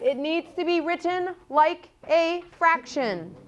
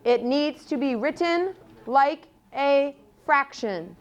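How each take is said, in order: First: The sentence is said at an ordinary, casual pace. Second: The sentence is said slowly with careful articulation.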